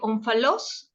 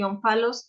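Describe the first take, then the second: First: The word is given its Greek pronunciation. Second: The word is given its Spanish pronunciation. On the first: "es griego" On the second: "es en español"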